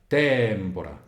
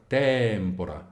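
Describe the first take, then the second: No difference in how they are said.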